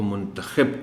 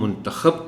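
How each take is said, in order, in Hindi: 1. आखिरी अक्षर में i स्वर है। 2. आखिरी अक्षर में a स्वर है। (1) "इंतखाब करने की बात है" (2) "इंतखाब किसी का हो रहा है या हो चुका है"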